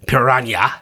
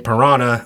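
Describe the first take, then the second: First: The word is said in an Eastern European accent. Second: The word is said in a plain Maine accent. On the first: This imitates the scientist in the movie. "I don't know if she was Eastern European or something. The scientist pronounced it piranha" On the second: This is the speaker's own way of saying it. "Like I say piranha. I'm from Maine"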